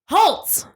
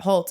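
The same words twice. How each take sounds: First: The name is yelled loudly, with force. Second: The name is said quietly, without force. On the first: The speaker calls it right. "you needed more oomph, more. It's capital letter. If it's in all caps, yell it" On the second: The speaker calls it wrong. "not Holtz"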